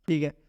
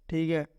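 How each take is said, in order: No difference in how they are said.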